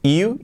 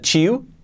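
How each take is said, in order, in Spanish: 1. La palabra empieza con sonido y. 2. La palabra empieza con sonido ch.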